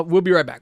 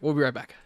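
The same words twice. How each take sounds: First: Loud showy sign-off; announcer voice. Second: Said in the usual way. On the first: Shown as a demonstration. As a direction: boom it out like a radio host. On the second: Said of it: "So, uh, we'll be right back".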